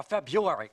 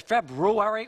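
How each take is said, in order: First: February said "Feb-YOO-ary"; February without the first R, deliberate and slow; dropped-R February. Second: February said "Feb-ROO-ary"; February with both R's, deliberate and slow; sounded-R February. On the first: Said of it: "'Cause I prefer Uary". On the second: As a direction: say February with a clear "roo" in the middle. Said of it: "'Cause I prefer Uary. And what is this Rue?". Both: Acted.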